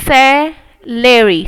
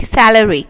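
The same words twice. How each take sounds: First: salary stretched slowly, part by part; slow syllable sounding. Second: Said in the usual way. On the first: Shown as a demonstration.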